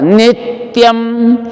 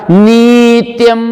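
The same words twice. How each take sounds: First: नित्यम with quick नित, then held tyam; higher chanted नित्यम with short first vowel. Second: नित्यम with the first vowel stretched to nee; wrong demo: chanted neee-tyam for नित्यम; long ī, wrong version. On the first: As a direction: cut ni short in नित्यम and close onto t. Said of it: "छोटा वाले को नी बोलेंगे". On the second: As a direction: hold नी long in नित्यम, on a higher note. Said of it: "उच्चारण गलत". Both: Shown as a demonstration.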